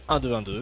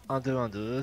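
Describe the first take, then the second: First: The voice is louder in the mix. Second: The voice is quiet in the mix. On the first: The speaker calls it right. "là ça sera mieux" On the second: The speaker calls it wrong. "On doit m'entendre assez peu"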